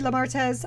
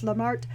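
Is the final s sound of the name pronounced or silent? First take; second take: pronounced; silent. First: The name ends with an audible s sound. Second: The name ends without a final s sound. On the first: "but it could be Lamartez" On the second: "I always pronounce it like it's French"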